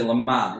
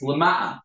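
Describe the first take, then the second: First: Leman said without the ayin; wrong pronunciation. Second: Leman said with the ayin sounded; correct pronunciation. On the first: Retold or imitated. A teacher mimics how people mispronounce it, no ayin. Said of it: "People say Leman". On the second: Shown as a demonstration. The teacher gives the right form with the ayin sounded. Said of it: "You need ayin".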